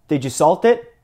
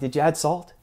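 First: It is asked in an accusing, rude tone. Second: It is asked in a plain, neutral tone.

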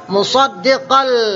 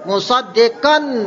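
First: The n sound merges fully into the l. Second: A clear n sound is pronounced before the l. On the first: The speaker calls it right. "tak bunyi nun dia masuk di atas huruf lam" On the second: The speaker calls it wrong. "jangan bunyi nun"

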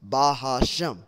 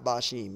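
First: The word has a middle 'ha' syllable. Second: The word has no middle 'ha' syllable. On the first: The speaker calls it right. "It's Bahashem, which means coming in the name" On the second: The speaker calls it wrong. "it's not Bashim"

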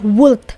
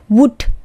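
First: The word is said with an audible L sound. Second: The word is said without any L sound. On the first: The speaker calls it wrong. "Ini bukan dibaca would, would salah" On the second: The speaker calls it right. "tapi would, would, W-U-D"

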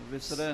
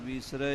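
First: The first vowel is a short i. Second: The first vowel is a long ee. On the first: The speaker calls it wrong. "ਵਿਸਰੈ ਨਹੀਂ ਕਹਿਣਾ" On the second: The speaker calls it right. "ਵਿਸਰੈ ਬਿਹਾਰੀ ਨਾਲ ਹੀ ਉਚਾਰਨ ਕਰਨਾ"

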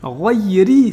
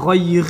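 First: The word ends with a short i vowel. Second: The word ends on the r consonant. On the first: The speaker calls it right. "Ghayri, c'est pas Ghayr" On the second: The speaker calls it wrong. "c'est pas Ghayr"

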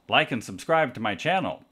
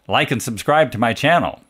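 First: The voice sounds quieter with a changed tone. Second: The voice sounds direct, full and loud. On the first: "this is 90 degrees off axis" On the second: "This is directly into the microphone"

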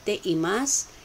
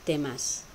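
First: The e vowel is pronounced before imasu. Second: The e vowel is dropped, giving temasu. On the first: This is the full written form. "without pronouncing the E of te imasu" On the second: This is how people say it in speech. "people often say, temasu"

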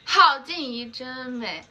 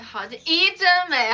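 First: The stress is on 好. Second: The stress is on 怡.

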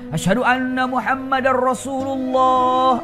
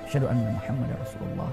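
First: It is said loudly, in a full voice. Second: It is said quietly, in a low voice.

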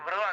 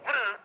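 First: The syllable is said at an ordinary level pitch. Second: The syllable is lifted up to a raised pitch. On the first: "వృ మామూలుగా వృ అంటాం కదా" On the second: "వృను పైకి ఎత్తేసేయాలన్నమాట"

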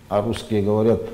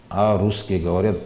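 Both takes have the same delivery.

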